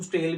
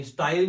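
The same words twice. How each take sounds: First: "स्टेल" said STAYL, with an ay vowel; "स्टेल" variant pronunciation. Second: "स्टाइल" said STY-ul, like English style; "स्टाइल" with long i. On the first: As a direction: say "स्टेल" to rhyme with tale. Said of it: "कुछ लोग इसको स्टेल भी कहते हैं". ("स्टेल" में 'ए' का उच्चारण) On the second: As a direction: say "स्टाइल" with an eye vowel. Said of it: "ये स्टाइल भी कह सकते हैं". ("स्टाइल" में 'आइ' का उच्चारण) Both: Shown as a demonstration.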